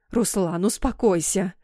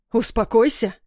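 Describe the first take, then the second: First: Hushed, whispery soothing plea; tearful cooing. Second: Restrained roar, voiced and forceful; angry roar. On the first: Sobbing mother trying to calm the armed father, tearful cooing. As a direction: soothe him in a half-whisper. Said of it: "всхлипывая, заворковала мама". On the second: Father rejecting mother's attempt to calm him, angry roar. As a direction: throw the word back angrily. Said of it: "взревел папа". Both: A narrator's reading.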